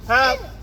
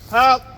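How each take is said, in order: First: It is a high, piercing, whistle-like shout. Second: It is a plain, ordinary shout. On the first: "we call it whistling, or we use the voice from here" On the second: "normally we're gonna shout like this"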